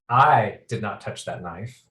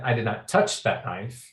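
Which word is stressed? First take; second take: I; touch. First: The word "I" carries the main stress. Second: The word "touch" carries the main stress. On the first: Someone else did it. "I seem to be implying that someone else did" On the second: Something else was done to it. "I did something to it, but maybe I didn't touch it"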